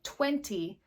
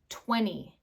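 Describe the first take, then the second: First: The T after the N is clearly pronounced. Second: The T is dropped, leaving only an N sound.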